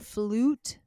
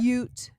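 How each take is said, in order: First: The vowel sounds like a plain oo. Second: The vowel sounds like yoo, the letter name. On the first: The speaker calls it right. "sometimes it says ooh" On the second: The speaker calls it wrong. "instead of"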